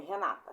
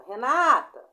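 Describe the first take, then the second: First: Said in the usual way. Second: Loud call of Renata, stress on "NA"; teacher demonstrating a name shouted to someone; calling a friend. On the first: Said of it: "Por exemplo, meu nome". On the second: Shown as a demonstration. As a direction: call out Renata with the middle syllable pushed. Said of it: "Chama, você não sabe chamar".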